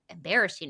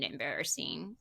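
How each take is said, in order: First: Said in the usual way. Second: Embarrassing said much lower and softer; low drawn embarrassing. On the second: Shown as a demonstration. Host repeats embarrassing, much lower and softer. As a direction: drop embarrassing deep and quiet.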